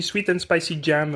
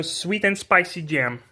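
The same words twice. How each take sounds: First: English words with a French accent; casual French-accented English. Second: Slow, careful American English accent; English product name with an American accent. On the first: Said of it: "comme chez nous, on dit". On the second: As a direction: stretch it out in a put-on American accent. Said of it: "on fait avec l'accent". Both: Shown as a demonstration.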